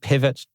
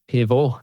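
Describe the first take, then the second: First: The name is pronounced the English way. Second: The name is pronounced the French way. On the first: "I'm going to call them Pivot because I'm a native English speaker" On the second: "I guess that's pronounced Pivot"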